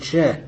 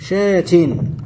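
First: The word ends in a plain h sound. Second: The word ends in a t followed by -in. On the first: The speaker calls it right. "إذا وقفت عليه قلت شاه" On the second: The speaker calls it wrong. "ولا تقول شاتن"

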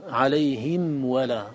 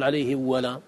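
First: The m sound is clearly pronounced before w. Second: The m sound is merged or hidden before w. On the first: The speaker calls it right. "بل حكمها البيان في الأداء" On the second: The speaker calls it wrong. "ولا تقول"

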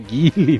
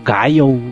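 First: The name is said with a Portuguese pronunciation. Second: The name is said with an English pronunciation. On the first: The speaker calls it right. "que negócio, cara, de Gaio, é Guile" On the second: The speaker calls it wrong. "tem uma galera que chama... Aí o Gaio"

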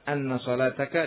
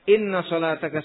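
First: The first word begins with an "a" vowel. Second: The first word begins with an "i" vowel.

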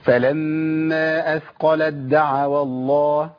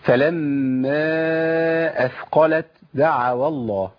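First: The t merges fully into the following d. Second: The t is released with audible breath before d. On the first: The speaker calls it right. "كده" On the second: The speaker calls it wrong. "انا كده عملت همس ما ينفعش"

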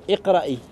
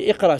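First: The word ends with an added linking i vowel. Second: The word ends on a bare consonant, no vowel. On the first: The word is joined to the following word. "On a fait une liaison" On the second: The word stands on its own. "À la base, c'est iqra, sukun"

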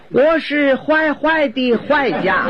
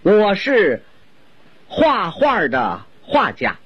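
First: The repeated syllable is pronounced huai. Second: The repeated syllable is pronounced hua. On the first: It sounds like she is a bad person. The speaker calls it wrong. "就因为一个画字他发音走了形" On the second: She is a painter. The speaker calls it right. "我先用普通话给您介绍一下她的身世。"

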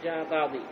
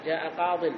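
First: The last word ends in a long ee vowel. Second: The last word ends in a short -in sound. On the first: The speaker calls it wrong. "ما في جاء قاضي، لا" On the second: The speaker calls it right. "تحذف الياء وتأتون بتنوين"

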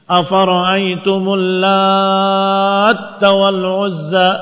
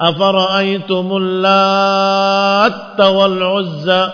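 Both takes have the same delivery.

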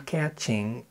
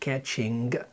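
First: The word ends in 'in' with no g sound. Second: The word ends with a clear g sound. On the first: The speaker calls it right. "بنقول catching" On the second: The speaker calls it wrong. "ما بنقولش catching"

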